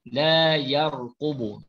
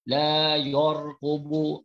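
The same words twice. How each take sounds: First: The syllable sounds like 'yar' with open vowel. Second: The syllable sounds like 'yor' with rounded vowel. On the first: The speaker calls it right. "tebal ni la yarqubu" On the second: The speaker calls it wrong. "jangan baca la yarqubu. Salah baca la yor"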